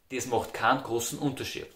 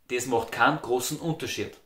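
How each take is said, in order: First: It is said in Austrian dialect. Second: The same.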